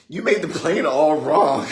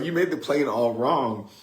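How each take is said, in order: First: High, loud mock kid complaint; little sister voice. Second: Milder mock kid complaint; lightly voiced, slightly high accusing little sister. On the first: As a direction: accuse him loudly in a high kid voice. Little sister blames her brother. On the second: Same quote repeated after laughing.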